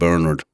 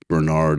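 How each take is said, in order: First: The name has an Irish pronunciation. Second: The name has an American pronunciation.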